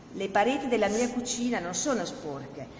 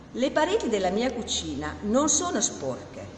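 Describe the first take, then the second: The two takes are said the same way.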